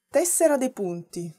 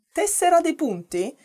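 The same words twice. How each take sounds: First: Said in the usual way. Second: "Tessera dei punti?" asked with a sharp high rise at the end; "Tessera dei punti?" sung up high as if unsure; questioning rise. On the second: Shown as a demonstration. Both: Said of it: "repeats the word as question".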